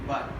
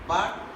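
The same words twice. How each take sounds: First: The vowel is reduced to a weak schwa. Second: The vowel is full and clearly pronounced.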